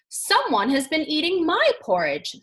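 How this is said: It is said in a middle-sized voice.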